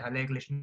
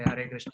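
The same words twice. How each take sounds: First: The first word has an L sound. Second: The first word has an R sound. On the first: "they say" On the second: "They they don't say"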